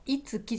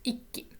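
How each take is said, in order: First: A full tsu syllable is pronounced between i and ki. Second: A held k sound replaces the tsu syllable. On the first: The speaker calls it wrong. "読み方はこのいつきじゃなくて" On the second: The speaker calls it right. "小さいつになります"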